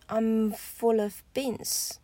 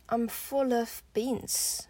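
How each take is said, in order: The two takes are said the same way.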